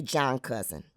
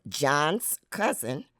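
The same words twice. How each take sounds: First: John cousin, no s; AAL possessive. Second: Said in the usual way. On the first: Shown as a demonstration. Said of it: "We just may say". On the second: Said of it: "possessive marker".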